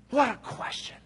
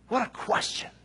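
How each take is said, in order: First: Whispered again, higher, full of wonder. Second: Breathy whisper, higher, in awe. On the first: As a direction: breathe it out in wonder. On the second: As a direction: let it fall to an awed whisper. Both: Real, not acted. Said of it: "repeated, whispered".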